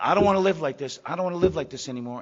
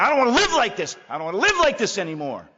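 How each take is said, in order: First: A louder plea, the scream only hinted; retold scream. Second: Loud, high desperate wail; a man at the end of his rope crying out; anguished cry. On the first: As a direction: cry it out again, less raw. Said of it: "I screamed out". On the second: Retold or imitated. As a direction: cry out in despair, much higher and louder.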